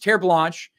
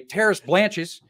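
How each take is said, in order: First: The name is said with a French pronunciation. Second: The name is said with an American pronunciation. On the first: The speaker calls it right. "It's French" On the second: The speaker calls it wrong. "I pronounced it the American way"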